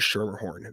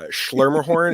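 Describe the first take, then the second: First: The name starts with a plain 'sh' sound. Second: The name starts with 'shl', adding an L sound. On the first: The speaker calls it right. "their last name is Schermerhorn" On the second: The speaker calls it wrong. "there's no L inside here"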